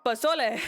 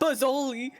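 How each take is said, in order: First: The word is said with its Spanish pronunciation. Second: The word is said with an anglicized pronunciation. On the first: The speaker calls it right. "which is how you pronounce it" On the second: The speaker calls it wrong. "they pronounced it Pozzoli"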